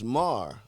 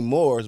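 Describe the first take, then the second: First: The vowel sounds like the word 'mar'. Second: The vowel sounds like the word 'more'. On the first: The speaker calls it right. "It's Mar" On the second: The speaker calls it wrong. "they say Moors"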